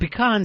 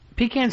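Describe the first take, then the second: First: It sounds like 'pi' plus 'kahn'. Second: It sounds like 'pee' plus 'can'. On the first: "sounds like you're too fancy pants" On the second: "sounds like you're pissing in a can"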